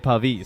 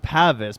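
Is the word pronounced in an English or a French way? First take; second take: French; English. First: The word is pronounced the French way. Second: The word is pronounced the English way. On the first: "it's a French word originally where they would say Pavis" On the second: "In English, it's often pronounced as Pavis"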